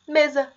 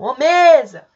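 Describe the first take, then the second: First: Said in the usual way. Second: Loud hail with a long first syllable in "mesa"; drawn-out, intense call to someone far off. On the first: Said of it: "um dos exemplos que eu coloquei aqui". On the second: Shown as a demonstration. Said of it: "Se você chamar a palavra mesa".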